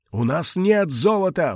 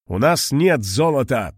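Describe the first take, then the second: First: Put-on high desperate old man's plea; desperate cry. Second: Put-on steady, firm old man's statement. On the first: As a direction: cry out in despair. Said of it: "в отчаянии закричал старик". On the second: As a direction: state it firmly, no pleading. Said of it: "твёрдо сказал Мариэль".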